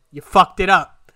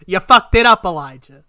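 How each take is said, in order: First: Loud angry self-scold. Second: Even louder, higher angry yell at himself; furious self-yell. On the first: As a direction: tell yourself off, loud and bitter. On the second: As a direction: blow up at yourself, voice rising. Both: Retold or imitated. Berating himself in his head.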